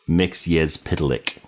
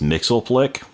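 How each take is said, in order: First: The name is said as mix-yes-spit-lick. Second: The name is not said as mix-yes-spit-lick. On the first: The speaker calls it right. "It's Mxyzptlk" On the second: The speaker calls it wrong. "a very common way that people pronounce his name"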